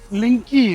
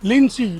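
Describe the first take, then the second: First: The middle consonant is a k sound. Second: The middle consonant is an s sound. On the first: This is how the name looks when read. The speaker calls it wrong. "ये लिंकी पढ़ेंगे ना उस्ताद" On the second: This is how the name is actually pronounced. The speaker calls it right. "इसकी pronunciation लिंसी"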